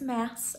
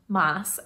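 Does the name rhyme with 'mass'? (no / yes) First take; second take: yes; no. First: The vowel sounds like the one in 'mass'. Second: The vowel does not sound like 'mass'. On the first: The speaker calls it right. "it's Maas as in Massachusetts" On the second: The speaker calls it wrong. "not Maas as I had pronounced it"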